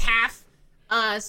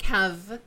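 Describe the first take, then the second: First: The name ends with an f sound. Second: The name ends with a v sound. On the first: The speaker calls it wrong. "Instead of just half" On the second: The speaker calls it right. "the Welsh pronunciation, which has a V that's not written. So it's more like have"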